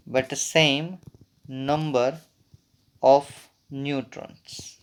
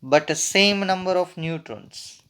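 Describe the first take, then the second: First: Very slow, in small chunks; dictation pace. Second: Said in the usual way. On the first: Real, not acted. Teacher dictating the isotones definition to students, slow dictation. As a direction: leave long gaps so they can write.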